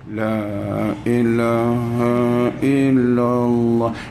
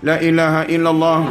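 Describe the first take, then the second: First: It is said softly and without energy. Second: It is said loudly and with energy.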